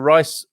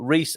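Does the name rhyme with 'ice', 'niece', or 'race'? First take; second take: ice; niece. First: The name rhymes with 'ice'. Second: The name rhymes with 'niece'. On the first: "I was going to go for Rice" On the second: "or Reese"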